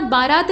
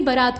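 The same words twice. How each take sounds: First: बारात with long first aa; first form. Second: बरात with short first a; second form. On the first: Teacher contrasting two forms, बारात with long first aa. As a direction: say बारात as "baaraat". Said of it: "नहीं बरात होता है". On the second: Teacher contrasting two forms, बरात with short first a. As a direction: say बरात as "baraat". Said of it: "बरात होता है". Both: Shown as a demonstration.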